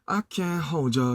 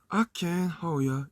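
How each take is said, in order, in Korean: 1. d와 y가 합쳐져서 강한 'j' 소리가 납니다. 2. d가 빠지고 부드러운 'yer' 소리가 납니다. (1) "이렇게 가면은 저라는 게 발음이 되게 딱딱하니까" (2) "이렇게 가야 되는데"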